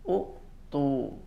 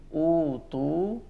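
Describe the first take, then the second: First: A glottal stop follows the short first vowel. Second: The first vowel is lengthened with no stop. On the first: This is the original underlying form. "asalnya adalah utu" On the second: This is how it is actually read. "Seperti utu"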